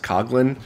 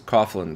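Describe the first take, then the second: First: The name is said with the Irish pronunciation. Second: The name is said just as it is spelled. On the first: "the Irish pronunciation is Coughlin" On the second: "spelled phonetically"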